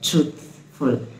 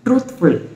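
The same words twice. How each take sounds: First: The th lets air flow out. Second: The th is cut off sharply. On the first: The speaker calls it right. "இந்த து து து சவுண்டில் நான் வந்து ஏரை வந்து எஸ்கேப் பண்ணுறேன்" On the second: The speaker calls it wrong. "ட்ரூத்ஃபுல் அப்படி கிடையாது"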